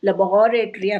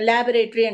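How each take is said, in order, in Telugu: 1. ఒత్తి రెండో అక్షరం మీద ఉంటుంది. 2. అక్షరాలకు ఒత్తి దాదాపు సమానంగా ఉంటుంది. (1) "సెకండ్ దాని మీద పెట్టాలి. లబొరేటరీ అనాలి" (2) "లాబొరేటరీ అంటాం"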